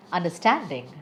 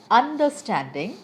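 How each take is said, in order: First: "understanding" with the main stress on STAND. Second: "understanding" with the stress wrongly thrown on UN. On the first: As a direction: keep "under" light and lean on STAND in "understanding". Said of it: "And the correct way is". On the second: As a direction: hit the first syllable of "understanding", UN-derstanding. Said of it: "I am wrong". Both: Shown as a demonstration.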